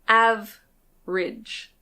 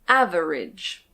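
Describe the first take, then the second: First: The word is said with two syllables. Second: The word is said with three syllables. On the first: "But most of the time, we actually say average" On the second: "This word can be pronounced average"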